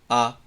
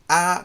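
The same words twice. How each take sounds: First: A dull central vowel with lips unmoved. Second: A bright open vowel with lips spread sideways. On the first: This is the English vowel. The speaker calls it right. "あっていう感じ" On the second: This is the Japanese vowel. The speaker calls it wrong. "あじゃなくて"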